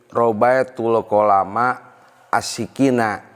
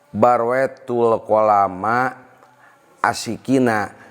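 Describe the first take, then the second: First: The first word starts with an r sound. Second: The first word starts with a b sound. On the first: The speaker calls it wrong. "Bapak membaca kemarin" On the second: The speaker calls it right.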